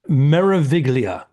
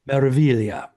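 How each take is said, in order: First: The g is sounded in the middle. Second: The g is silent in the middle. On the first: The speaker calls it wrong. "I have the American uh, way of pronouncing things" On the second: The speaker calls it right. "you don't pronounce the G. It's silent"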